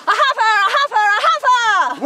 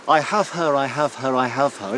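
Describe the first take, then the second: First: Louder and higher, gleeful cry; shout. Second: Shouted claim in a light Shropshire accent. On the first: Acted. Ruth tries the harvest cry, loud high shout. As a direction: yell it across the field. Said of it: "You wanna try that?". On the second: Shown as a demonstration. Professor demonstrates the harvest cry, Shropshire accent. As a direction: call it out Shropshire style, falling each time. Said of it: "in a Shropshire accent".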